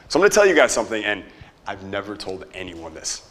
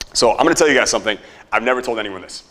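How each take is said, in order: First: It is said in a hushed, secretive voice. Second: It is said in a plain, normal voice.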